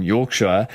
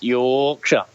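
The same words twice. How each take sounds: First: Yorkshire said with a clear r, York-shire; Yorkshire the outsider way, r sounded; Yorkshire pronounced like a visitor, not a local; Yorkshire said wrong. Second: Yorkshire said York-sha, no r, ending clipped to sha; Yorkshire the way locals say it, slowly, dropping the r; Yorkshire as York-sha, falling, unhurried; local Yorkshire pronunciation. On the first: Real, not acted. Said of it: "you gotta say it right". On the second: Shown as a demonstration. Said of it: "That's how they say it".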